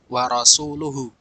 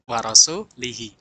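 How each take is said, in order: First: The last word ends with u vowels. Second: The last word ends with i vowels. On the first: The Messenger also disowns the idolaters. The speaker calls it right. "Ini adalah bacaan yang benar" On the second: God disowns his own Messenger. The speaker calls it wrong. "dengan mengkasrahkan lafaz rasul"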